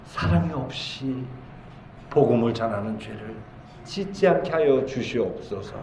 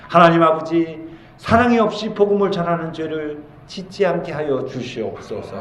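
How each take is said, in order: First: Hushed prayer. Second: Raised-pitch plea to God; earnest prayer. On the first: Preacher repeats the petition for the congregation, hushed prayer. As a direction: repeat the prayer gently, with pauses. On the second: Preacher models a prayer to God for love, earnest prayer. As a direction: pray it out as a model petition. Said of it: "평소에 늘 기도해야 돼요". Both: Shown as a demonstration.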